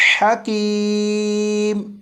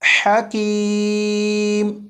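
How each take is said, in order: Both takes have the same delivery.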